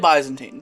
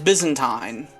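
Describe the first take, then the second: First: It is said with the American pronunciation. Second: It is said with the British pronunciation. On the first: "that's the American pronunciation" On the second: "The British pronunciation is Byzantine"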